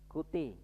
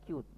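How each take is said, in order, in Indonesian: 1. Diucapkan dua suku kata, berakhir dengan 'ee'. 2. Diucapkan satu suku kata, berakhir dengan 't'. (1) "Tulisannya C U T E" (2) "bacanya cute"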